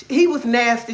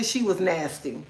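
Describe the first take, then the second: First: HE punched, the rest light; He stressed over she. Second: SHE punched, the rest softer; stress on SHE. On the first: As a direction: hit the word He. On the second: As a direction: hit the word she. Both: Shown as a demonstration.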